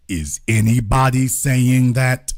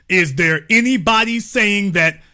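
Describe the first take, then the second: First: Deep, slow, mocking question; mock low voice. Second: Said in the usual way. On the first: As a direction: drop the voice low and drag out the question.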